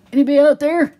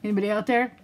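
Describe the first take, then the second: First: "Anybody out there?" called out much louder and higher; calling out. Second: Said in the usual way. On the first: Shown as a demonstration. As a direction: shout "Anybody out there?" into the void.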